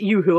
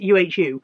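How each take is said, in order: First: The name is said as one word. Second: The name is spelled out letter by letter. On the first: "I don't know if you're supposed to pronounce it Yoohoo" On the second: "or whether you're supposed to pronounce it U-H-U"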